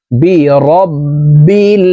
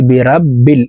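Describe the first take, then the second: First: বিরাব্বিল slow with a thin, light র; correct reading. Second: বিরাব্বিল with an open, full রা sound; wrong reading. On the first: Teacher modelling the proper thin র, slowly. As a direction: stretch বিরাব্বিল, keep the র thin. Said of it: "পড়তে হবে এইভাবে". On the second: Teacher showing the common mistake of an open রা. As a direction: say বিরাব্বিল with a broad রা. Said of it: "এই রকে রা বলে উচ্চারণ করি আমরা অনেকেই". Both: Shown as a demonstration.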